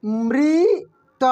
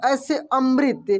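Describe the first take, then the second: First: अमृत stretched very slowly, the mri held; drawn-out spelling-out. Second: Said in the usual way. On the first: Shown as a demonstration. Teacher to pupils, spelling out the word slowly. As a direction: sound out अमृत syllable by syllable. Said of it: "क्या हो जाएगा?".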